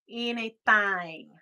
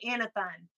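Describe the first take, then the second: First: It is said like two separate words. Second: It is run together as one word. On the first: This is how Southerners actually say it. The speaker calls it right. "We say anything. Thing" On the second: This is how film dialect coaches render Southern speech. The speaker calls it wrong. "in a movie, if you're in the South, they say anything. But that's the way a British person would say anything"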